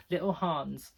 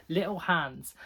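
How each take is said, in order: First: "Hans" with a long "ah" vowel; broad-A "Hans", as in "father"; long-A pronunciation. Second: "Hans" with the short vowel of "hand"; flat-A "Hans", as in "hand"; short-A pronunciation. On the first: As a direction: say "Hans" as "Hahns". Repeats name with other vowel. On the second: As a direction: say "Hans" to rhyme with "hands", drawn out slowly. Tries two pronunciations of name. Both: Shown as a demonstration.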